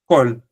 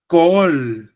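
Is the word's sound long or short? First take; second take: short; long. First: The word is said short, without doubling. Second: The word is said longer, with a doubled sound. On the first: "this one has no dagesh" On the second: "This one has a dagesh, so it's kol"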